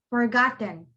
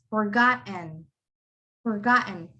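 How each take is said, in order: First: "forgotten" with a sounded T before "en"; T pronounced. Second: "forgotten" as forgot, catch, "n"; silent T. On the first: Teacher shows the wrong forgotten, T sounded. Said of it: "You don't pronounce it as". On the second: Teacher gives the correct forgotten, silent T. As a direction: swallow the T in "forgotten". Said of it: "you cannot pronounce a T. You would say it as". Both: Shown as a demonstration.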